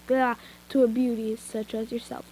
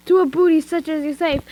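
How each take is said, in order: First: Said in the usual way. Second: "booty" said in place of "beauty", louder and higher; joking misreading. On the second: Shown as a demonstration.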